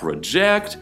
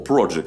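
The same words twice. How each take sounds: First: The stress is on the second syllable. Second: The stress is on the first syllable. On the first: It is a verb meaning to design or to cast an image. "а project означает проектировать или проецировать" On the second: It is a noun meaning a plan or undertaking. "слово project как проект вы знаете"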